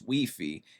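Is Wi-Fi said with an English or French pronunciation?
French. It is said with a French pronunciation.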